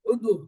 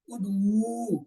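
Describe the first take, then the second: First: Said in the usual way. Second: ادعو with the final oo drawn out; drawn-out waw. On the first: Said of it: "ادعو کو تھوڑا آہستہ بولتے ہیں". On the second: Shown as a demonstration. Teacher reciting the plural command in the table, last vowel of ادعو stretched. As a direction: hold the end of ادعو long and slow. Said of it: "واو والے کو تھوڑا سا کھینچ لے جاتے ہیں".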